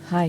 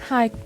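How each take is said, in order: First: The voice is at a lower pitch. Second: The voice is at a higher pitch.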